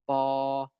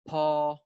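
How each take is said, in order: First: The first consonant has no puff of air. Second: The first consonant has a puff of air. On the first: "we also have unaspirated stops" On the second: "aspirated stops are stops produced with a puff of air"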